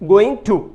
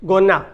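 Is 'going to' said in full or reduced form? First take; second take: full; reduced. First: It is said in full, 'going to'. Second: It is reduced to 'gonna'. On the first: "आगे गोइंग टू" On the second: "उसके लिए गोना"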